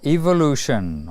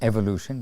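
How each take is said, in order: First: It is said with a British pronunciation. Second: It is said with an American pronunciation. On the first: "depending on if you speak British or American" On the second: "depending on if you speak British or American"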